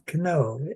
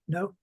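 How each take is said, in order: First: The word starts with a k sound before n. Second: The word starts with an n sound, no k. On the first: This is the old pronunciation. "in Old English, they used to pronounce that k" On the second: This is the modern English pronunciation. "we pronounce it no"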